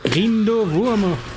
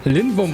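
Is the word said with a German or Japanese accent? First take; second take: Japanese; German. First: It is pronounced the Japanese way, with R. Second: It is pronounced the German way, with L. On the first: The speaker calls it right. "if I'm trying to speak Japanese" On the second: The speaker calls it wrong. "I shouldn't say it like completely German"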